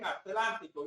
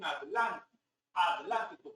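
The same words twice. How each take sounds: First: "Atlántico" with t and l run together, a-TLÁN-ti-co; Latin American pronunciation. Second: "Atlántico" split as ad-LÁN-ti-co; Spaniards' pronunciation. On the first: Shown as a demonstration. Lecturer showing what Spaniards don't say, "Atlántico" with joined tl. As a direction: join the "tl" in "Atlántico". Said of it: "ellos no dicen". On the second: Retold or imitated. Lecturer imitating Spaniards, "Atlántico" split as ad-LÁN-ti-co. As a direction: soften the t of "Atlántico" and separate it from l. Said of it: "no hay tra-, tre-, tri".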